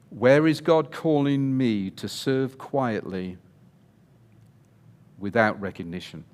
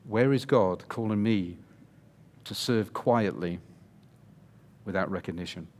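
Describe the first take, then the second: First: It is said loudly, almost shouted. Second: It is said at a normal speaking volume.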